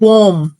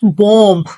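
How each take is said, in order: First: The final b sound is silent. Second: The final b sound is pronounced. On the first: The speaker calls it right. "Actual word is बॉम्ब" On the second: The speaker calls it wrong. "Not बॉम्ब"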